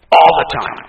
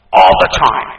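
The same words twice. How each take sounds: First: Loud echo. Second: "All" in "All the time" hit hard and loud; loud emphasis. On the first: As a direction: repeat "All" firmly. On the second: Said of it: "repeated emphatic phrase". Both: Real, not acted.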